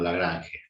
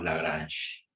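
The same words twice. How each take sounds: First: The name is said with a Spanish pronunciation. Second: The name is said with a French pronunciation. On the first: "Cuando estamos acá en La Rioja decimos" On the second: "cuando estamos en Francia decimos"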